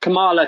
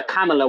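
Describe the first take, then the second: First: "Kamala" with the stress on the middle syllable; unsure pronunciation. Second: "Kamala" with the stress on the first syllable; alternative pronunciation. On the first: Trying out the politician's name, "Kamala" as kuh-MAH-la. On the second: Offering another version of the name, "Kamala" as KAM-uh-la. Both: Shown as a demonstration. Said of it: "I don't know how you say her name".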